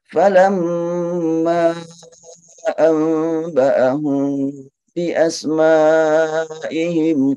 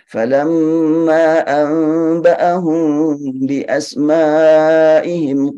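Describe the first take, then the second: First: The long vowels are held for four beats. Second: The long vowels are held for two beats. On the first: "empat tanpa silah" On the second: "dibaca dua harokat"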